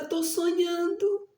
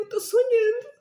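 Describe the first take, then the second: First: Said in the usual way. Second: Crying. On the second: Retold or imitated. Fearing son died, breaking down.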